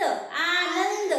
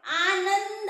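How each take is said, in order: First: "आनंद" stretched very slowly, n dwelt on; drawn-out reading. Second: Said in the usual way. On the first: Shown as a demonstration. Teacher shows the nn in "आनंद" to pupils. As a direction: draw out "आनंद" to show the nn sound. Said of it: "बघा, नन". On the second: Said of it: "नन उच्चार झालाय".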